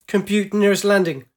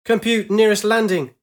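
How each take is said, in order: First: Loud barked order; urgent command. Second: Louder, higher shouted order. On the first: Acted. Pilot ordering her holosphere to find landing, urgent. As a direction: bark the command at the computer. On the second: A narrator's reading. Pilot repeating her order at the sphere, shouting. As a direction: shout it, more desperate. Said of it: "she shouted".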